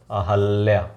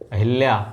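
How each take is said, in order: First: An a vowel follows the h sound. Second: An i vowel follows the h sound. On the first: The speaker calls it right. "गलत ना करिएगा" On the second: The speaker calls it wrong. "सही है?"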